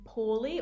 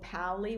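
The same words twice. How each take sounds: First: The name is said without Italian pronunciation. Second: The name is said with Italian pronunciation.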